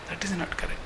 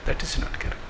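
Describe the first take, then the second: First: Soft verdict. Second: Whispered, hushed firm verdict. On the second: Speaker rejecting the serial's portrayal, whispered. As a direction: breathe the verdict out. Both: Shown as a demonstration. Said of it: "repeated verdict".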